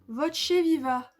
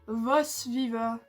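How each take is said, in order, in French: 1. Le nom se prononce à l'italienne. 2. Le nom se prononce à la française. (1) "Et vous allez me dire de prononcer du, de l'italien" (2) "dit en bon français"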